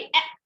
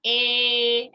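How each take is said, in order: First: ए cut short, as a quick sound; normal short sound. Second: ए held long, loud and level; long sound. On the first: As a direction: say ए briefly, without stretching. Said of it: "ऐसा नहीं बोलते हैं". (ए को सामान्य, छोटा बोलना) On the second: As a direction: stretch ए out, louder, on one note. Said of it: "ऐसा long sounds बोलते हैं". (ए को ज़ोर से लंबा खींचना) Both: Shown as a demonstration.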